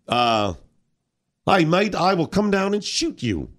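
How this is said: It is said in an Australian accent.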